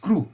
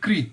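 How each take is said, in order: First: The syllable is said with an oo vowel. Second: The syllable is said with an ee vowel. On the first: This is how Gujarati speakers say it. "આપણે ગુજરાતી લોકો છે we call this ક્રુ" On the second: This is how North Indian speakers say it. "the North Indians call it Kri"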